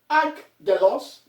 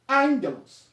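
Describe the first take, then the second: First: The double gamma is sounded as two hard g's. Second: The double gamma is sounded as ng. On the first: The speaker calls it wrong. "we don't pronounce this as angelos, no" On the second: The speaker calls it right. "it is pronounced as ang, as in N and G"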